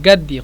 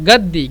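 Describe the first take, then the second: The two takes are said the same way.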